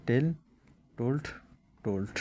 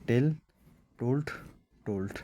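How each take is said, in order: Both takes have the same delivery.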